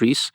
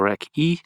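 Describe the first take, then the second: First: It is said as one syllable ending in s. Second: It is said as two syllables, k then ee. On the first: This is the speaker's own usual pronunciation. "I call it Reese" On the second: Other people say it this way. "or Rec E"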